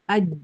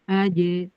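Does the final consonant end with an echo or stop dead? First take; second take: stops dead; echo. First: The final consonant is held with no release. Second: The final consonant is released with a bounce. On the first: The speaker calls it wrong. "nggak mantul. Aj. Nggak enak" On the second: The speaker calls it right. "seolah-olah melepaskan apa gitu"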